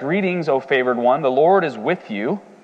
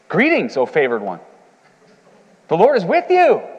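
First: The greeting is said flatly, without excitement. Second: The greeting is said excitedly, like an exclamation.

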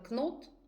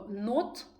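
First: The word begins with a k sound. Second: The word begins without a k sound. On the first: The speaker calls it wrong. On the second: The speaker calls it right.

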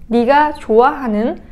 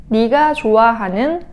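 Both takes have the same delivery.

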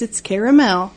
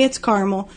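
First: The word is said with three syllables. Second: The word is said with two syllables. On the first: This is the soft, silky caramel. "two A's, it's caramel" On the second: This is the hardened candy. "One A, it's caramel"

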